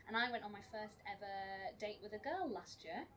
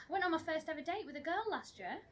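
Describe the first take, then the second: First: Said in the usual way. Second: Higher, louder excited announcement. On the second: Shown as a demonstration. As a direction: sell it like big news, with a lift on "went". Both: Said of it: "You're not as excited as I was".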